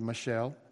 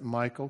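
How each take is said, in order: First: The name sounds like Michelle. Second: The name sounds like Michael. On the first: "could be Michelle" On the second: "I always pronounce it Michael"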